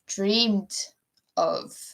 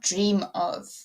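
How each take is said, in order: First: The first word ends with a clear d sound. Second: The first word ends without a d sound. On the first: The speaker calls it right. "pronounce the whole word" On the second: The speaker calls it wrong. "not dream of"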